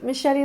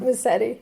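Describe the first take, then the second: First: The name sounds like the word machete. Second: The name is said with a plain s sound. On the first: This is the official original pronunciation. "It could be machete like the knife. That's the official name" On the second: This is the Americanized pronunciation. "people Americanize it as Massetti"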